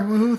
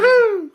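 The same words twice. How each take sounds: First: It is said flatly, without enthusiasm. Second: It is said with lively enthusiasm.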